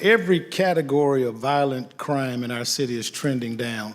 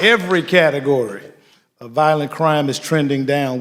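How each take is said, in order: First: It is said in a plain speaking voice. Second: It is said in a preacher voice.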